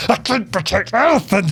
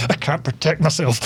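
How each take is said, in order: First: Higher, hammed-up frantic wail; over-the-top mock hysteria; mock mental rant. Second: Restrained imitation of a frantic man; understated mock panic; mock mental rant. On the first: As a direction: imitate a man completely losing it. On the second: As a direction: lightly mimic someone losing it. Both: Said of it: "going absolutely mental".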